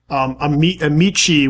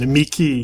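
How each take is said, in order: First: The word uses church Latin pronunciation. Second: The word uses classical Latin pronunciation. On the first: "would be the church pronunciation" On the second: "is classical"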